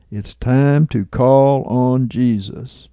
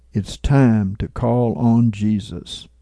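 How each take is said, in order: First: Said in the usual way. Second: Mildly softened, gentle quote; a touch of quiet empathy; soft, empathetic tone. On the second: Retold or imitated. Man beside the speaker urging him to call on Jesus, softly empathetic. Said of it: "said in a soft, empathetic tone".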